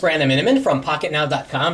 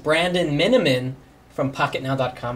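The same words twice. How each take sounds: First: The name is said at a fast pace. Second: The name is said at a slow pace. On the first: The speaker calls it wrong. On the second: The speaker calls it right.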